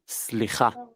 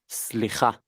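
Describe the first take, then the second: No difference in how they are said.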